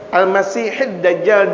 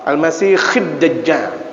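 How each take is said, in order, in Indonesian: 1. Bunyi di tengahnya adalah h tenggorokan yang berdesah. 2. Bunyi di tengahnya adalah kh yang bergesek. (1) "dengan ha" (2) "boleh dibaca dengan kha"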